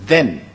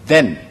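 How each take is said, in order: No difference in how they are said.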